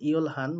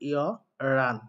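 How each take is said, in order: First: The l and h are both clearly sounded. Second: The h drops and it sounds like yeoran. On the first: The speaker calls it wrong. "এটার উচ্চারণটা অনেকে করেন ইয়লহান, বাট সেটা সঠিক উচ্চারণ নয়" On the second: The speaker calls it right. "সঠিক উচ্চারণ লিসনিং এ যেটা শোনা যায় সেটা হচ্ছে ইয়রান"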